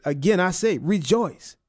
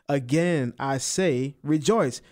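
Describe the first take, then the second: First: Repeated with added emphasis; emphatic again I say rejoice. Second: Said in the usual way. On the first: Shown as a demonstration. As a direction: stress on say, rising rejoice. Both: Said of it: "He put another emphasis on it".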